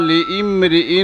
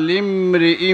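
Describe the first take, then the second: No difference in how they are said.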